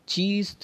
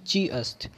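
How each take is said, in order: First: The two words are joined into one. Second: The two words are said separately.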